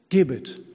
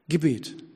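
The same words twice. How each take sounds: First: The stress is on the first syllable. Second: The stress is on the second syllable. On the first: It is a command to give. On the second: It means prayer.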